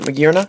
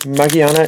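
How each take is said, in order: First: The name is given an English pronunciation. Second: The name is given a Japanese pronunciation. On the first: "I know you English collectors pronounce it Magiarna" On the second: "it's Magiana in Japanese"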